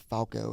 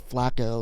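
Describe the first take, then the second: First: The L sound comes right after the A. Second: The L sound comes right after the F. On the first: The speaker calls it wrong. "that's not right" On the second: The speaker calls it right. "like pronounce it correctly"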